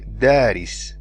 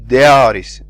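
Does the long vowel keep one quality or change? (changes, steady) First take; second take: steady; changes. First: The long a vowel keeps one quality throughout. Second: The long a vowel shifts quality from start to end. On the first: The speaker calls it right. "you say daris" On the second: The speaker calls it wrong. "you do not say daris, daris. See, you do not change how the alif sounds"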